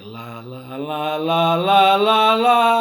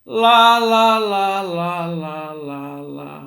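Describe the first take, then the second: First: It grows from soft to loud. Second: It fades from loud to soft.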